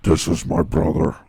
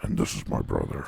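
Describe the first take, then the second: First: Creepy podcast host. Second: Breathy, hushed creepy whisper. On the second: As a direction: breathe it like a creepy podcast host. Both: Retold or imitated. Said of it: "Even the way they introduce each other".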